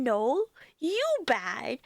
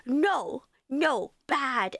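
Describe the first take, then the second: First: Put-on slow, teasing baby talk thrown back at him; mocking baby talk. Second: A lightly voiced angry toddler, simple words; imitating toddler nephew. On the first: Aunt mocking her toddler nephew back, slow teasing baby talk. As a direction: mimic the toddler to tease him, slowly. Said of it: "I make fun of him and I point at him back and then I go". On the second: Toddler nephew getting mad at his aunt, lightly imitated. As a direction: scold like a toddler who can't form words yet. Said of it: "he just goes".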